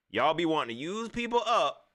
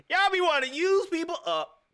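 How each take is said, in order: First: Laughing accusation. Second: Much higher and louder, teasing repeat; high mocking repeat. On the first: Real, not acted. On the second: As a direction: throw the line back up high, mocking.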